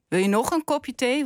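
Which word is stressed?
nog. The stress falls on the word nog. The listener has already had three cups. "Want je hebt er al 3 gehad"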